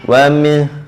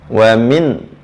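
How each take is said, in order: First: The final n is only faintly pronounced. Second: The final n is fully pronounced. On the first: "nunnya macam sepuluh, dua puluh ataupun dua puluh lima peratus" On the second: "berarti disebut seratus peratus"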